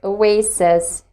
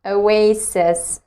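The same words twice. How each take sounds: The two takes are said the same way.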